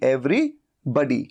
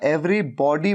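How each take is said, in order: First: The second part sounds like 'buddy' with 'uh'. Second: The second part sounds like 'bawdy' with 'aw'. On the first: The speaker calls it right. "लेकिन ये बडी" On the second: The speaker calls it wrong. "Every बॉडी मत कहिए, बॉडी नहीं।"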